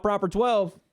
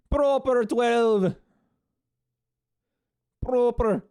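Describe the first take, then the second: First: Said in the usual way. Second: Slow, high mock Irish accent; hammed-up Irish accent, drawn out. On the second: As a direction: savour the brand name in Irish. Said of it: "How's that Irish accent?".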